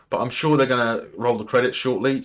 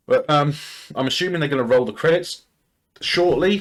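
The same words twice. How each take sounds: First: Said in the usual way. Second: Interrupted by a hiccup. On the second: Real, not acted. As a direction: hiccup jolts the last word. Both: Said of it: "Sorry, I'm hiccuping".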